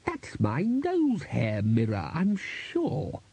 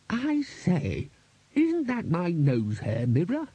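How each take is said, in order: First: Slow character voice, leaping high mid-phrase; the Bursar's insistence. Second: High, slow character voice, questioning; the Bursar's query. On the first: Bursar claims his mirror, slow swooping insistence. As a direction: draw it out with a big swoop on the claim. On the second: Bursar spots his mirror among the decorations, high questioning voice. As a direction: ask it high, drawing the words out. Bursar breaks the spell, asking. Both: A narrator's reading.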